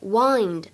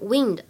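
First: The vowel rhymes with 'find'. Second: The vowel rhymes with 'pinned'. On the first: It means to turn or twist something. The speaker calls it right. "由于我们采用的意思是拧上或者说上发条，所以呢它的读音应该是wind" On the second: It means moving air. The speaker calls it wrong. "不要读成wind 啊，并不是风的含义"

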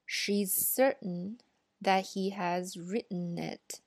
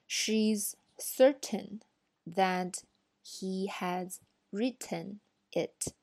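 First: The t sounds are held and not released. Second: The t sounds are fully released. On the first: "爆破音也是需要hold 住的" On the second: "我先用以前的这个标准的这个来翻一下"

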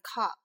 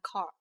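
First: The final r is silent, with no tongue curl. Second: The final r is pronounced with a curled tongue. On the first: The speaker calls it right. "英式发音car 发成car" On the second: The speaker calls it wrong. "不是发成car，是不需要卷舌的"

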